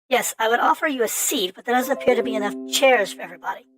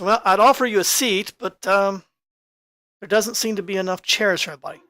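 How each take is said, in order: First: It is said in a changed character voice. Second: It is said in the speaker's usual voice.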